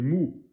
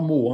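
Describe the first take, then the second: First: The syllable has a rounded oo vowel. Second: The syllable has an open o vowel. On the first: The speaker calls it right. "c'est mou" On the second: The speaker calls it wrong. "C'est pas mot"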